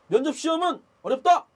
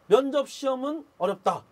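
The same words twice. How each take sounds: First: It is said loudly, with a firm clear tone. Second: It is said quietly, without projection.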